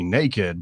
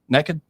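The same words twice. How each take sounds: First: The word is said the standard way. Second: The word is said the local way. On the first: The person simply has no clothes on. "you could just be naked" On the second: The person has no clothes on and is up to something. "How do you say it if you're up to something?"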